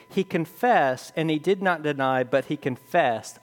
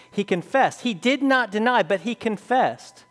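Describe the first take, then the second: First: Said in the usual way. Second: Higher pitch, stress on CONFESSED and NOT; emphatic. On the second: Shown as a demonstration. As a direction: hammer home CONFESSED and DID NOT DENY. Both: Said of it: "Notice the emphasis".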